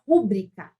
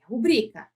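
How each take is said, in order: First: "rúbrica" stressed on the first syllable, RU-brica; the common wrong way, stress at the front; "rúbrica" said as the mistake, RU-brica. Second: "rubrica" stressed on the middle syllable, ru-BRI-ca; the right way, weight on BRI; "rubrica" with a firm ru-BRI-ca; correct stress. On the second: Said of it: "Não é rúbrica, é rubrica". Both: Shown as a demonstration.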